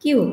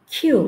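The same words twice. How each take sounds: First: Said in the usual way. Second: "কিউ" said as khyu, K with a puff; aspirated Q. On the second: Shown as a demonstration. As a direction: burst of air on the K of "কিউ". ("কিউ"-এর ক-কে খ করে মহাপ্রাণ উচ্চারণ) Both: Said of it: "সঠিক aspirated sound".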